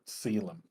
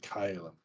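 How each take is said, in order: First: The word begins with an S sound. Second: The word begins with a K sound. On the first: This is the English way to say it. "the proper English pronunciation" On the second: This is the original Latin way to say it. "The original Latin pronunciation would be more like"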